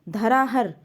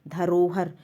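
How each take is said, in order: First: The middle vowel sounds like 'a'. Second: The middle vowel sounds like 'o'. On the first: The speaker calls it wrong. "अशुद्ध है" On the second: The speaker calls it right. "शुद्ध शब्द है"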